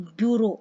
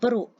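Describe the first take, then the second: First: It has a 'byoo' sound at the start. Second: It starts with a plain 'b' sound. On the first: The speaker calls it wrong. "जैसे हम कई लोग pronounce किएंगे तो ब्यूरो" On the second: The speaker calls it right. "पर इसकी right होती है ब्रो"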